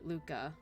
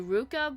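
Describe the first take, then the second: First: The name begins with an L sound. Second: The name begins with an R sound. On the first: "the translator decided to stick with L" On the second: "it's actually Ruka"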